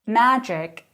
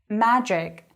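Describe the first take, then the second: No difference in how they are said.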